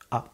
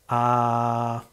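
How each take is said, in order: First: The sound is cut off very quickly. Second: The sound is held for about one second. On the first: Less light gets in, so it is harder to catch. "si j'avais fait juste Ah" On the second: More light gets in, so it is easier to catch. "je vais vous faire un son pendant une seconde"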